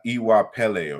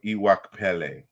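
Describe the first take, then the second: First: The consonant before "ele" is a plain p. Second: The consonant before "ele" is kp. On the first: This is how most people say it. "they just pronounce the P in in Iwapele" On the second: This is the true original form. "because it's really Kpele"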